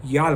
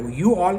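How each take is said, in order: First: "y'all" run together as one American syllable; "y'all" said American-style, one syllable; merged "y'all". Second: Said in the usual way. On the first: Shown as a demonstration. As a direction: squash "you all" into a single "y'all". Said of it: "बना दिया". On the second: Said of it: "को".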